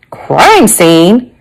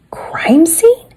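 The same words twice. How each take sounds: First: Drawn-out, fully voiced question; grandmother's voiced query. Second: High, unvoiced-sounding whispered query; hushed echo of the question. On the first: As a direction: question it aloud as the surprised grandmother. Grandmother's query, against whispered repeat.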